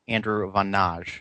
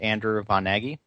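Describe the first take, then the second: First: The surname is said the Hungarian way. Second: The surname is said the American way. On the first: This is the original, correct pronunciation. "for those throughout the rest of the world, the correct pronunciation" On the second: This is how people in America say it. "for those in America"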